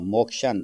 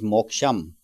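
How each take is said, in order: First: The word ends with an n sound. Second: The word ends with an m sound. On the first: The next word begins with cha. "When there is a cha, then they use na" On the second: No cha follows the word. "Otherwise, it is moksham"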